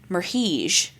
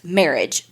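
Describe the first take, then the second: First: The name does not sound like marriage. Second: The name sounds like the word marriage. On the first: The speaker calls it wrong. "I kept being like, Merhige, but like all kinds of crazy stuff" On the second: The speaker calls it right. "pronounced marriage beside it"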